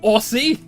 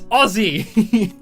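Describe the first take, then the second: First: The middle consonant is a hissing s sound. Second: The middle consonant is a buzzing z sound. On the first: The speaker calls it wrong. "It is not A U S S I E" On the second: The speaker calls it right. "You pronounce it like O double Z I E"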